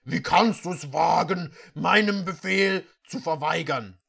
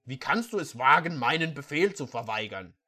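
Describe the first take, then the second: First: Angry prince. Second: Said in the usual way. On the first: Acted. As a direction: rage at the disobedient servant. Prince rages at servant.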